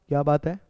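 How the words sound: It sounds like a genuine question.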